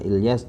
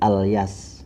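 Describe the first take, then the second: First: The first vowel is an 'i' sound. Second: The first vowel is an 'a' sound. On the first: "jika ada yang menyebut Mbah Ilyas juga benar" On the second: "hamzahnya ini diharokati fathah, berarti Alyas"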